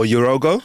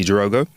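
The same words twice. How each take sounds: First: Jirogo starting with a Y sound. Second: Jirogo with a soft zh-like J; soft J pronunciation. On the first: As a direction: say Jirogo as "yuh-ROH-go". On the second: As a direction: say Jirogo starting with a J sound, "zhuh-ROH-go". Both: Shown as a demonstration. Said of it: "I hope I'm saying your name correctly".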